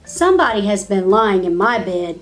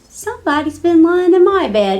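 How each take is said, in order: First: It is said in a great big voice. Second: It is said in a little wee voice.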